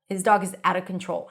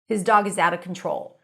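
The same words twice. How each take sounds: First: The H at the start of 'his' is dropped. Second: The H at the start of 'his' is dropped.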